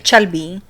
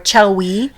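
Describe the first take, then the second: First: It starts with ch and has a b. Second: It starts with ch and has a w. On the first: "They say Chelby" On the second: "or Chelwy"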